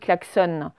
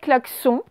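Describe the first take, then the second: First: The word is pronounced in an English-like way. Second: The word is pronounced the way it is spelled. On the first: "on le prononce un peu à l'anglaise, euh, à l'américaine, on dit klaxon" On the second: "ça s'écrit en fait klaxon"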